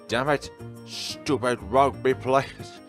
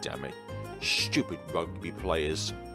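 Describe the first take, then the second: First: The words are yelled loudly. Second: The words are mumbled quietly under the breath. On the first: The complaint is meant to be overheard. "I repeat his words with a yell" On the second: The complaint is kept private. "He mumbles the words under his breath"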